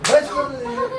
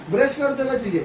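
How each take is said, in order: First: Much higher, incredulous squeak; can't believe what you're seeing; amazed disbelief. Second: Said in the usual way. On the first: Real, not acted. Mother repeats the question, amazed.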